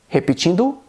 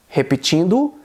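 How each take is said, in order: The two takes are said the same way.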